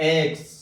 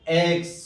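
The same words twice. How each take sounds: The two takes are said the same way.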